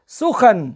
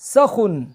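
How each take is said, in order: First: The vowels are u, then a. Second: The vowels are a, then u. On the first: "सीन के पेश और खे के ज़बर के साथ" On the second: "सीन के ज़बर और खे के पेश के साथ"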